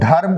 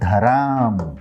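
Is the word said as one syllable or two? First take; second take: one; two. First: The word is said as one syllable, dharm. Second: The word is said as two syllables, dharam. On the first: This is the standard Hindi form. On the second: This is the regional Nagpuri form.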